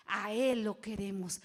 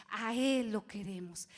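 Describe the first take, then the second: No difference in how they are said.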